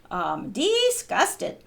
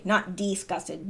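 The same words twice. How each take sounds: First: "disgusted" stretched slow, Southern style; Southern drawl on disgusted. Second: Said in the usual way. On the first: Shown as a demonstration. Demonstrating how folks in Wilkes County say it, drawled. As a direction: draw out "disgusted" the way they say it down south. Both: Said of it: "that's how they'd say it down south".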